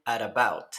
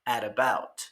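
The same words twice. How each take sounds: First: American flap in "at about"; flapped T. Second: "at about" repeated with a soft tapped R for the T; American flap in "at about" again; flapped T. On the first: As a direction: link "at about" with a quick tapped R sound. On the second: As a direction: tap the T in "at about" like a light R. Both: Shown as a demonstration. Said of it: "la T suena como una R suave entre dos vocales".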